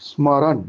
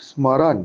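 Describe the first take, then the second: Both takes have the same delivery.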